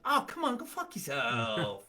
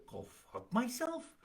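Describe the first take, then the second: First: Joking. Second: High, soft offended question; incredulous, higher and quieter; taken aback. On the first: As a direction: brush them off playfully, drawing it out. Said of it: "When I really meant". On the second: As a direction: echo it back in disbelief, voice rising. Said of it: "you might hear". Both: Shown as a demonstration.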